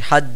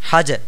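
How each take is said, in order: First: The final consonant stops flat with no echo. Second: The final consonant bounces with a slight echo. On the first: The speaker calls it wrong. "এইভাবে উচ্চারণ করি হাজ, তাহলে শুদ্ধ হবে না" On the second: The speaker calls it right. "এখানে উচ্চারণ করতে হবে হাজে"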